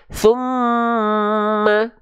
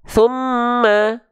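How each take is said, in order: First: The nasal m sound is held noticeably longer. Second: The nasal m sound is held only briefly. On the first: The speaker calls it right. "Harusnya summa" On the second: The speaker calls it wrong. "dua harokat kadar mad itu ... kecepatan kadarnya"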